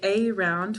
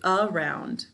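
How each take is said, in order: First: The first vowel is a long 'ay' sound. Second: The first vowel is a weak 'uh' sound. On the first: This is the careful spelling pronunciation. The speaker calls it wrong. "when we're speaking, we don't say a round" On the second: This is how it sounds in normal speech. The speaker calls it right. "What do we say? Right"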